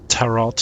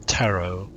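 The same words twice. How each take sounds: First: Tarot with the final T sounded; mispronounced final T. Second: Tarot ending in a long O; silent final T. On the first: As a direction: say "tarot" like TA-rot, hard T at the end. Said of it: "Not tarot". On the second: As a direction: say "tarot" as TA-roh, dropping the last T. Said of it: "you pronounce it tarot". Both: Shown as a demonstration.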